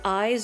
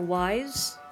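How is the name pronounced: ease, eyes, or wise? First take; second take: eyes; wise. First: It sounds like the word eyes. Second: It sounds like the word wise. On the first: "I've heard people say eyes" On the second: "or wise"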